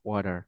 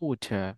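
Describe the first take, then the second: First: It is said with an American accent. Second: It is said with a British accent.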